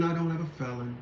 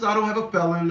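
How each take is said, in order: First: Much softer, muttered under the breath; quiet aside. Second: Said in the usual way. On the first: Shown as a demonstration. Repeating to viewers that he has no felony, muttered softly. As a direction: drop it to a mutter, to yourself. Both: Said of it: "repeats the line twice".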